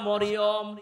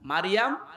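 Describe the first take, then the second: First: The name is said as Moriyom. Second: The name is said as Maryam. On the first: This is the common local form. The speaker calls it wrong. "অনেকে বলে সূরা মরিয়ম। না, মরিয়ম বলে কোনো শব্দ কোরআনে নেই।" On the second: This is the form used in the scripture. The speaker calls it right. "কোরআনে আছে সূরা মারিয়াম। মারিয়াম বলেন বলেন।"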